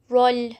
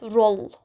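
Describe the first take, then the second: First: The word ends with a soft l sound. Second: The word ends with a hard l sound. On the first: The speaker calls it right. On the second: The speaker calls it wrong. "not roll"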